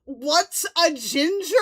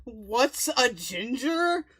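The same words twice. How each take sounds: First: Louder, higher incredulous echo; louder disbelief. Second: Drawn-out incredulous echo; slow mocking repeat. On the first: Real, not acted. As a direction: say it again, louder and amazed. Repeating Fallon's question louder. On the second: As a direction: repeat it slowly in disbelief. Repeating Fallon's question slowly.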